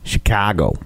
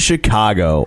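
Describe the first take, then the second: First: It is said in a local Chicago accent. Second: It is said in an ordinary non-local accent.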